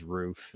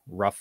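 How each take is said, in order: First: "roof" with a long oo; long-vowelled "roof"; contrasting pronunciation. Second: "rough" with a short uh vowel; American pronunciation. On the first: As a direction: say "roof" to rhyme with proof. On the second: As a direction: say "rough" like ruff. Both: Shown as a demonstration. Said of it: "rough versus roof".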